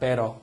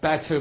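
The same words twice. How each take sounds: First: It is said in an American accent. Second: It is said in a British accent. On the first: "우리 미국식 영어로서" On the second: "영국식에서는"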